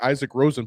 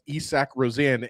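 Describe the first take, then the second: First: The first name sounds like the English name Isaac. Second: The first name sounds unlike the English name Isaac. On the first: This is how the spelling looks. The speaker calls it wrong. "This guy's name looks like" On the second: This is how the name is really said. The speaker calls it right. "but it's pronounced"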